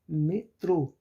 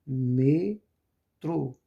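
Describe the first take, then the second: First: "metrô" in one go, loud on trô; stress on final syllable. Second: "metrô" split slowly into me, trô, loud; syllable-by-syllable stress. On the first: Teacher giving students an oxítona example, stress on final syllable. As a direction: say "metrô" louder, leaning on its last syllable. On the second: Teacher helping students find the strong syllable, syllable-by-syllable stress. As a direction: draw out "metrô" as two separate loud syllables. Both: Shown as a demonstration. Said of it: "Qual a sílaba mais forte?".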